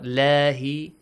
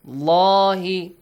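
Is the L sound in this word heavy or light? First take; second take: light; heavy. First: The L sound is thin and light. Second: The L sound is thick and heavy. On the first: The speaker calls it wrong. "not lahi" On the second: The speaker calls it right. "the lam in the word Allah is heavily pronounced"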